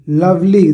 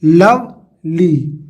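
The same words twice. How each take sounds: First: Said in the usual way. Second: "लवली" very slowly in two sounds, लव, then ली; long pause between लव and ली in "लवली"; split into syllables. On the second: Shown as a demonstration. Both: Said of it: "दो sound है ना".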